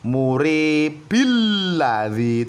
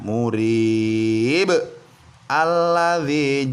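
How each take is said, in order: First: Murib runs into alladzi with only 'il'. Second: There is a stop after murib before alladzi. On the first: "Tidak boleh muribil ladzi" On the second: "Itu jika kita berhenti atau wakof ya"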